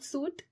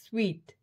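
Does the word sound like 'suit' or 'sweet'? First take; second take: suit; sweet. First: The word sounds like 'suit'. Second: The word sounds like 'sweet'. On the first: The speaker calls it wrong. "It's not suit" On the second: The speaker calls it right. "it's suite"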